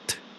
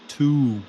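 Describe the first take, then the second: First: It is reduced to a short t sound. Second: It is said as a full syllable. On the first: The speaker calls it right. "It's just t" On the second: The speaker calls it wrong. "So please do not say to"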